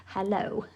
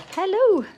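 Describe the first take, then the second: First: Said in the usual way. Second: Much higher and louder, sing-song; high sing-song hello. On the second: Real, not acted. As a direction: greet them high and bright. Greeting someone arriving.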